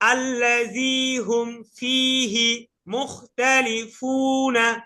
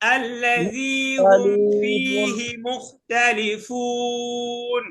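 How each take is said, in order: First: The last word ends with a final 'a' vowel. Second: The last word ends on 'n' without a vowel. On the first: The reading continues without stopping. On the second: The reader stops here.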